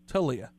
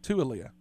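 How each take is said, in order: First: The name begins with one syllable, 'tow'. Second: The name begins with two syllables, 'too-ah'. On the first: The speaker calls it right. "It's Talia" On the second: The speaker calls it wrong. "I've been pronouncing it Tua-lia"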